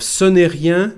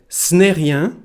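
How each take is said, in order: First: Every syllable of the phrase is said in full. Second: The phrase is shortened, with sounds dropped. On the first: "Instead of ce n'est rien" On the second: "we can say"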